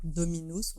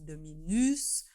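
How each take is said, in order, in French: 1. Le mot est prononcé sans accent français. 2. Le mot est prononcé avec un accent français. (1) "au lieu de dire" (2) "on prend comme un accent français en parlant le latin"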